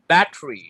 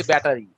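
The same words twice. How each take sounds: First: "ব্যাটারি" in two syllables, bat-ree; সঠিক উচ্চারণ. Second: "ব্যাটারি" in three syllables, ba-ta-ri; প্রচলিত উচ্চারণ. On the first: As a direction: drop the middle vowel of "ব্যাটারি". ("ব্যাটারি", ছোট করে ব্যাট্রি) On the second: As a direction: keep the full middle vowel in "ব্যাটারি". ("ব্যাটারি", তিন অক্ষরে ব্যা-টা-রি) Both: Shown as a demonstration. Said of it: "আমরা বলি ব্যাটারি".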